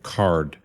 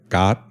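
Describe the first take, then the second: First: The word is said with an English accent. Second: The word is said with a Thai accent. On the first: "it's supposed to be the English word card" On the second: "when Thai people say it, it's like got"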